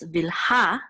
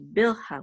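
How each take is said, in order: First: The stress is on the last syllable. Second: The stress is on the first syllable. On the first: "accent is on the last syllable, so it's Vilha" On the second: "in English we usually say Bilha, we put the accent mark in the beginning"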